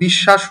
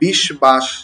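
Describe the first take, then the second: First: No 'b' sound; the 'sh' is doubled instead. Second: A 'b' sound is heard after the 'sh'. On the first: The speaker calls it right. "বিকৃত উচ্চারণ হলো, অর্থাৎ বিশ্বাস হলো" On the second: The speaker calls it wrong. "প্রকৃত উচ্চারণ কি হওয়ার কথা ছিল? ... কারণ স এর নিচে ব আছে"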